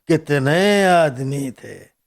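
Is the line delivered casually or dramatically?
dramatically. It is said in a weighty, dramatic villain's way.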